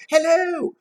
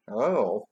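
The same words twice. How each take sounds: First: Shrieky high-pitched greeting; very high hello. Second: Unexcited hello at everyday pitch; low-key hello. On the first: Trying out the boy's reply, squealing high. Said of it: "Did he go". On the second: Guessing the boy's likelier reply, low-key. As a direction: say it casually, dropping at the end. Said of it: "or maybe". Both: Shown as a demonstration.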